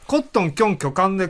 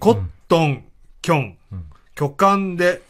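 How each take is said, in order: First: The phrase is said at a fast pace. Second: The phrase is said at a slow pace. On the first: "早口やってみ" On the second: "ゆっくり"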